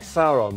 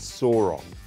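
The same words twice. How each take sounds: First: The name has its current pronunciation. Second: The name has its older film pronunciation. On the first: This is how the name is said now. "than we do now" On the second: This is how the earlier film said it. "they pronounced the names differently in that movie"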